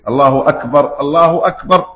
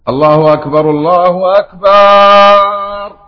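First: The vowel after the b is kept short. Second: The vowel after the b is drawn out long. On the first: It means God is greatest. The speaker calls it right. "فليزم الله أكبر الله أكبر هكذا" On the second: It turns the word into a plural meaning drums. The speaker calls it wrong. "مد الألف بعد الباء"

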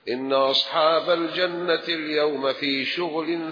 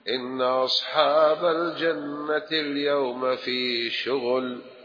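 First: The speaker continues without stopping after the word. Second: The speaker stops after the final word. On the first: The people of Paradise are busy with enjoyment. The speaker calls it right. "فلا بد تصل ولا تقف" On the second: The people of Paradise are busy with toil. The speaker calls it wrong. "ويسكتوا. السكتة دي ليست جيدة"

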